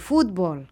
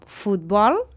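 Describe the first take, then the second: First: The stress is on the first syllable. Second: The stress is on the last syllable. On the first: The speaker calls it wrong. "i no futbol" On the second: The speaker calls it right. "també són paraules agudes"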